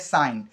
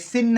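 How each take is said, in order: First: The vowel is a long eye sound. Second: The vowel is a short i sound. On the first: The speaker calls it right. "ये है साइन" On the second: The speaker calls it wrong. "ये सिन नहीं है"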